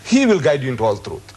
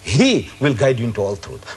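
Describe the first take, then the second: First: The pronoun 'he' is not emphasized. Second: The pronoun 'he' is emphasized.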